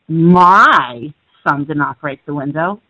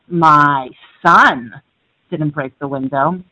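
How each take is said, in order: First: The word "my" carries the stress. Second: The word "son" carries the stress. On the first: Someone else's child broke it. "you're implying somebody else's did" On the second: A different child in the family broke it. "My daughter did"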